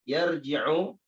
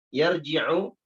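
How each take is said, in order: Both takes have the same delivery.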